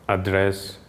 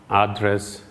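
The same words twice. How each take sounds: Both takes have the same delivery.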